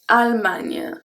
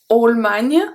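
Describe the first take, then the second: First: The first syllable has a plain French 'a'. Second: The first syllable sounds like English 'all'. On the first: The speaker calls it right. "It's Allemagne" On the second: The speaker calls it wrong. "like you will say A L L in English, all"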